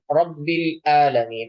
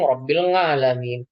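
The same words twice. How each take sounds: First: 'Alamin' begins with a glottal stop. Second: 'Alamin' begins with a nasal ng sound. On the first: "ainnya dibaca hamzah" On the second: "ada yang baca kayak kayak ang"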